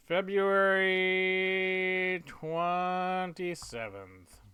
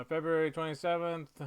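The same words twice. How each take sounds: First: Loud, very slow, stretched syllables; drawn out. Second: Said in the usual way. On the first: Real, not acted. Writer filling in a date, slowly drawn out. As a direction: hold each syllable long and high. Drawing out date while writing.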